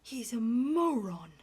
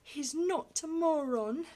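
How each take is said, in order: First: Loud disgusted verdict, stress on moron; contemptuous outburst. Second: Put-on not hit high and loud, defending the boy; loud, higher cry leaning on not; crying out, stress on not. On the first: Acted. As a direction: spit out the judgment. Duke's horrified verdict. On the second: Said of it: "Nurse cried out".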